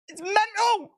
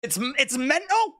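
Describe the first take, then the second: First: Much higher, squeaky delight; gleeful. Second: Said in the usual way. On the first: Real, not acted. Repeating in glee.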